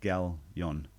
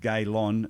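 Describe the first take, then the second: First: The name begins with a 'gal' sound. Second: The name begins with a 'gay' sound. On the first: The speaker calls it right. "instead of" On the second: The speaker calls it wrong. "I said your name wrong"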